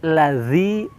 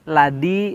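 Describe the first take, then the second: First: The middle consonant sounds like a z. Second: The middle consonant sounds like a d. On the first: The speaker calls it right. "Tapi lazi, za, ... mirip makhrajnya seperti huruf sa" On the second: The speaker calls it wrong. "ini sama dengan da"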